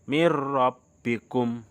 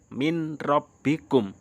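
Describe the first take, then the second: First: The n merges into a doubled r sound. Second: The n is clearly sounded before rabbikum. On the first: This is how it is read. The speaker calls it right. "Jadi bacanya mir rabbikum" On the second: This is how it is written. The speaker calls it wrong. "Padahal tulisannya min rabbikum"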